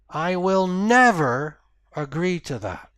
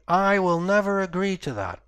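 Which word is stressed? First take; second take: never; I. First: The stress falls on the word never. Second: The stress falls on the word I. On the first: Nothing can change the speaker's mind. "that's the end of the conversation" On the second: Others may agree, but the speaker will not. "maybe someone else will agree to that, but I won't"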